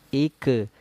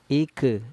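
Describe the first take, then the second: Both takes have the same delivery.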